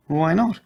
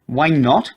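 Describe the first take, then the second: First: Said in the usual way. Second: Throws the question back, louder; echoing, louder. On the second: A narrator's reading. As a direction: she echoes it back loud and high. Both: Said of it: "she echoed".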